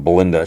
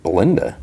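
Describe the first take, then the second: First: Said in the usual way. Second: "Belinda" with a rising question tune; imitated query, "Belinda" lifting at the end; questioning echo. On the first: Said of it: "it's a planet just called". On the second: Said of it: "and she's like".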